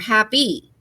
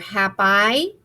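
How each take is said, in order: First: The word ends with an 'ee' vowel sound. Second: The word ends with an 'eye' vowel sound. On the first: The speaker calls it right. "or E" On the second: The speaker calls it wrong. "it's either going to say I"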